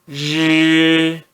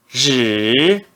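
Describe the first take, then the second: First: The pitch stays high and level. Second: The pitch dips low, then rises. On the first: "R mais I no primeiro tom" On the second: "No terceiro tom"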